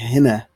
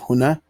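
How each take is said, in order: First: The first vowel is 'i', as in Egyptian. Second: The first vowel is 'u', as in standard Arabic. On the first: This is the Egyptian dialect form. "In Egypt, they like to say hina" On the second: This is the standard Arabic form. "instead of huna"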